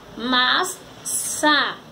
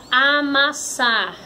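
First: "amassar" very slowly, a, mas, sar; sílabas separadas. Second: "amassar" as one whole word; palavra juntada. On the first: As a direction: break "amassar" into three spaced syllables. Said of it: "Formou a palavra amassar". ("amassar" bem devagar, sílaba por sílaba) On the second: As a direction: join the syllables of "amassar". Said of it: "Formou a palavra". ("amassar" dito como palavra inteira) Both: Shown as a demonstration.

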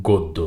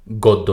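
First: গদ্য said "goddo", with a rounded o; correct o-like vowel. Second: গদ্য said "gawddo", with open aw; mistaken open vowel. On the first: Teacher correcting the error, "goddo". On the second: Teacher showing the error to avoid, "gawddo". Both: Shown as a demonstration. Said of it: "গদ্য না".

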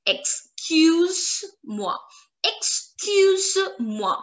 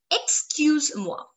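First: "Excuse-moi" as ex, kyuz, mwa, high and slow; slow French syllables. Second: "Excuse-moi" as ex-kyuz-mwa, run together; joined-up French. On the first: Teacher showing informal excuse me, "Excuse-moi" slowly in pieces. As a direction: split "Excuse-moi" into parts, no ay after Z. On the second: Teacher modelling informal excuse me, "Excuse-moi" joined up. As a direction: say "Excuse-moi" connected, no ay after Z. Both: Shown as a demonstration. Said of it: "You will stop at Z".

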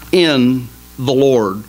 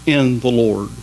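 First: IN drawn out slowly, falling; stress on IN. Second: IN hit again, lower; stress on IN. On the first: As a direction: lean on "in" in "in the Lord". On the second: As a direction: repeat "In the Lord" leaning on "In". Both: Shown as a demonstration. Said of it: "See that last three words?".

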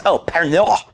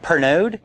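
First: "Oh, Pernod" with a French r and no final d; "Pernod" said as pehr-NO, the French way; pointing it out. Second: Questioning Pernod with a rise; "Pernod?" said the French way, rising like a question; waiter correcting. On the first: Waiter realizes the order and says Pernod the French way. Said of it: "points at it and says". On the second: Waiter corrects the diner's Pernod with a puzzled rise. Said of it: "And the guy's like". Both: Retold or imitated.

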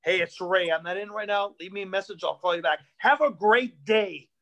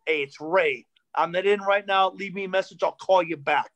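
First: A lower dad voice, a bit cheerier at the end; lightened-up dad. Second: A lower, stiff, angry-sounding message; stiff angry dad. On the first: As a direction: read the updated message trying to sound friendly. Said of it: "This is his outgoing message". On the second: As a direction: read it like a nervous, gruff dad. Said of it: "this is my dad's outgoing message". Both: Retold or imitated.

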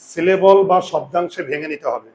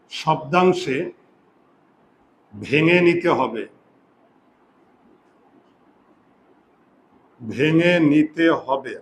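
First: Said in the usual way. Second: Stretched-out words, slow and measured; slow dictation. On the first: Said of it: "আবার বলছি". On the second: Shown as a demonstration. Teacher repeats the rule for students writing it down, slow dictation. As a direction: dictate it slowly for note-taking.

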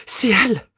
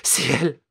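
First: Much higher and louder, near a shriek; ecstatic cry. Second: High, breathless recognition; first gasp of hope; excited. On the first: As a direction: let the joy burst out. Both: Acted. Mother recognises her lost daughter.

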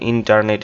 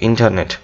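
First: ইন্টারনেট as "in-tar-net", R sounded; full "tar" in ইন্টারনেট; common pronunciation. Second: ইন্টারনেট as "IN-tuh-net", R dropped; weak middle vowel in ইন্টারনেট; English pronunciation. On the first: Teacher quoting how we pronounce it, R-sounded ইন্টারনেট. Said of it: "আমরা ইন্টারনেট এভাবে উচ্চারণ করি". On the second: Teacher modelling the proper word, R-less ইন্টারনেট. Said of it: "তো এটা আমরা ইন্টারনেট এভাবে উচ্চারণ করি". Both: Shown as a demonstration.

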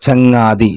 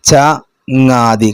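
First: Said in the usual way. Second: ചങ്ങാതി drawn out syllable by syllable; slow syllables. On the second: Shown as a demonstration. Teacher to class: ചങ്ങാതി sounded out slowly. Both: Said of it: "ഇത് ചേർത്തി വായിക്കാനാ വന്ന്".

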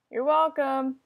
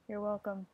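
First: Laughing. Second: Said in the usual way. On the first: Real, not acted.

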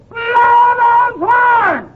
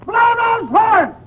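First: High holler, hugely stretched out; bigger comic shouting. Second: High, slow holler; comic shouting. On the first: Frightened patient demanding noise around him, long drawn-out shouting. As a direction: drag every word into a long bellow. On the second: Frightened patient demanding noise around him, high comic shouting. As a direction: call out each word high and stretched. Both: Acted. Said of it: "there's no sense in shouting".

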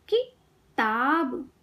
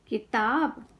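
First: किताब slowly, pause after कि, long ताब; syllable by syllable. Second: Said in the usual way. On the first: Shown as a demonstration. Teacher teaching kids to read, syllables apart. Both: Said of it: "शब्द पढ़ना सिखाऊंगी".

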